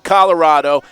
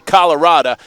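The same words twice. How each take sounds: First: It is said in a general, non-Texan way. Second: It is said in a Texan way. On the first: This is not how this person says it. "I don't say Colorado" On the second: This is how this person says it. "I say Colorado because I come from Texas"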